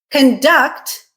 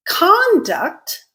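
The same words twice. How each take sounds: First: Conduct said with stress on the second syllable, con-DUCT; verb stress conDUCT. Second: Conduct with a high first syllable falling to the end, CON-duct; noun stress CONduct. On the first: Teacher explaining the verb, second-syllable stress. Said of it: "Conduct is a verb". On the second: Teacher presenting the noun, first-syllable stress. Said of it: "on the other hand, is a noun". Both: Shown as a demonstration.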